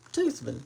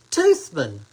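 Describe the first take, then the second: First: Said in the usual way. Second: Drops low and louder on Toothman; amused name reading. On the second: Real, not acted. Host reads a viewer's funny surname, low amused. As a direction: savor the odd name Toothman, low and loud. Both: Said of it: "Isn't that something?".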